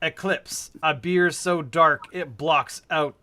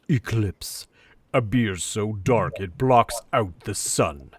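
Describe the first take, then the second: First: It is read in a plain, ordinary way. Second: It is read in a dramatic, theatrical way.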